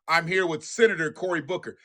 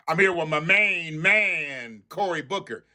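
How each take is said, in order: First: Said in the usual way. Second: Slow, drawn-out mock intro; lightly imitating a smooth politician; drawling parody of a hype introduction; mocking the congressman. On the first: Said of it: "Didn't nobody ask you all that?".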